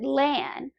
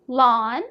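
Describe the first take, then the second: First: The vowel sounds like the one in van. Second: The vowel sounds like the one in lawn. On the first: "Most people pronounce it Lan. Rhymes with van or pan" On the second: "how do you properly pronounce them"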